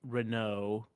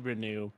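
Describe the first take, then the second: First: The name ends with an 'oh' vowel. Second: The name ends with an 'ooh' vowel. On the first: It follows the French-style reading. "you would say, oh, like Renault" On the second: It follows the commonly heard reading. "not like ooh. But anyways, they say Renew"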